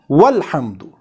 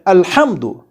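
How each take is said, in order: First: The initial glottal stop and vowel are dropped. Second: It starts with a glottal stop and 'a'. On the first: "we are not pronouncing this hamza before this lam in the connected speech" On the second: "we pronounced this initial hamza with a, with a fatha"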